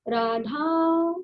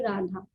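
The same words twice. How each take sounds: First: The name is drawn out, as if calling. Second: The name is said plainly and short.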